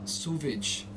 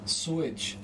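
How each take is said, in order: First: "Sewage" said slowly as "soo-vidge". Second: Said in the usual way. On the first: Shown as a demonstration. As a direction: put a German V in the middle of "Sewage". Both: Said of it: "changing W to V".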